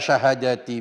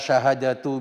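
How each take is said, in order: First: The word ends in an i vowel. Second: The word ends in a u vowel. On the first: It stands in apposition to the word for five. "Kalau dibaca syahadati di situ menjadi atof bayan atau menjadi badal" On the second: It is the subject or predicate of its own clause. "syahadatu dibaca tu, dibaca dhamma"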